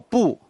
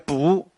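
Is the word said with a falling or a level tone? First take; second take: falling; level. First: The word is said with a falling tone. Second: The word is said with a level tone. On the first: The speaker calls it right. "绝对都是去声，都是仄声，没有平声的" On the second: The speaker calls it wrong. "请记得不要念不"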